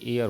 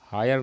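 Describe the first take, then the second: First: The word begins with a vowel, h silent. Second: The word begins with a pronounced h sound. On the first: The speaker calls it right. "यहाँ पर एयर होना चाहिए, एच नहीं पढ़ा जाएगा" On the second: The speaker calls it wrong. "He died without हायर नहीं होना चाहिए"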